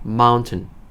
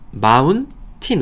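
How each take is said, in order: First: The last syllable is reduced to a short 'tn'. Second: The last syllable is said with a full 'tin'. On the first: "마운틴 아니고 튼이에요" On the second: "우리 마운틴이라고 하죠"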